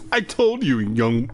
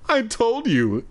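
First: Stern opening. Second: High sharp start; stern opening. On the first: Reader rereading the shopkeeper's warning, sharp. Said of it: "oh, wait, I already did that". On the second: Shopkeeper warning the boy, sharp. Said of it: "first take of the line". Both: A narrator's reading. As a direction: bite the first words.

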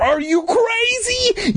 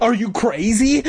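First: Very high, drawn-out outraged question; enraged cry. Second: Raised, incredulous angry question; angry cry. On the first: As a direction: stretch it out in a frenzy. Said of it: "his face red with anger". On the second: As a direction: demand it in a higher voice, first outburst. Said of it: "Doctor Gray cried, his face red with anger". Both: A narrator's reading.

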